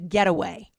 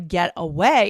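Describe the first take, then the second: First: It is said as one word, no break. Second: There is a small break between the parts. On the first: It is a noun meaning a vacation. "you bring the words together" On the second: It is a verb meaning to leave. "there's a little break"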